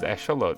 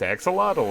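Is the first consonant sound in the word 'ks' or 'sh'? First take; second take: sh; ks. First: The x is said as an sh sound. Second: The x is said as a ks sound. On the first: This is the native Aztec-style pronunciation. "It's how it's pronounced is Esholot" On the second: This is the common English-speaking pronunciation. "everyone I see... it's Axolotl"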